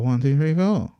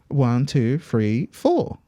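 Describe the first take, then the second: First: The count is said at a faster pace. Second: The count is said at a moderate pace.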